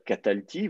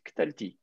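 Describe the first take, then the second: First: The first vowel is fully pronounced after k. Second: The first vowel is dropped, giving kt together. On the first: "au lieu de dire katalti" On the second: "vous allez faire tomber la, le, le, l'initiale"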